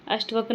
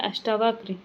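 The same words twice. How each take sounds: First: अष्टवक्र said short, no long aa after ष्ट; अष्टवक्र with short a, the common mistake; wrong spelling said. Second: अष्टावक्र with a clear long aa after ष्ट; correct spelling said. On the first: Teacher shows students the wrong form, plain demo. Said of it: "अष्टवक्र नहीं होता". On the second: Teacher gives students the correct form, clear demo. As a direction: stretch the aa in अष्टावक्र. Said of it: "क्या होता है, अष्टावक्र". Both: Shown as a demonstration.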